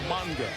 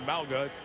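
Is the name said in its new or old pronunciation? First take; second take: new; old. First: The name is said with its changed pronunciation. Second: The name is said with its former pronunciation. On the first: This is how the name is said now. The speaker calls it right. "It's now" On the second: This is how the name used to be said. The speaker calls it wrong. "Used to be"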